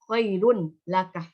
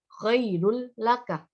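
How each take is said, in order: First: The n sound is kept before the l. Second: The n sound merges fully into the l. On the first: The speaker calls it wrong. "tidak boleh membaca" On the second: The speaker calls it right. "harus dimasukkan"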